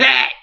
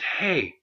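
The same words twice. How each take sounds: First: It is said loudly and harshly. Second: It is said quietly and nicely.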